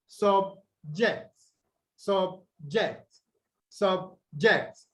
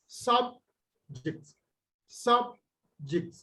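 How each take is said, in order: First: Subject said sub-JECT, second syllable stressed. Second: Subject said SUB ... ject, first syllable stressed. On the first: Teacher shows how the word becomes a verb, second-syllable stress. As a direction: split subject and land on JECT. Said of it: "you have the stress on the second syllable". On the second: Teacher demonstrates the noun to the class, first-syllable stress. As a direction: split it, leaning on SUB in subject. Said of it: "is stressed on the first syllable". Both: Shown as a demonstration.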